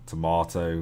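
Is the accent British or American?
British. It is said in a British English accent.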